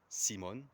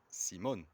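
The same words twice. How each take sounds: First: The stress is on the first syllable. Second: The stress is on the second syllable. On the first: The speaker calls it wrong. "you don't say it Simon" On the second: The speaker calls it right. "the accent is on the O, which means ... you say it Simon"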